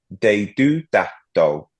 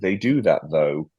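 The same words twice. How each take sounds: First: The th sounds are said as d. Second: The th sounds are said as th. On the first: "But you say it with all D's" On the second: "It translates to"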